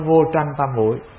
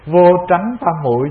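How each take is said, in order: First: The second syllable has a level tone. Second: The second syllable has a rising tone. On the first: The speaker calls it wrong. "chứ không phải vô tranh tam muội" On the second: The speaker calls it right. "Vô tránh tam muội chứ không phải"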